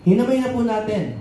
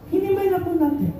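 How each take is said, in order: First: Said in the usual way. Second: Much higher, insistent repeat of "Hinamay na po natin"; emphatic repeat. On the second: Real, not acted. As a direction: hammer home "Hinamay" up high with insistence. Repeats summary line, much higher. (mataas at mariing ulit ng "Hinamay na po natin")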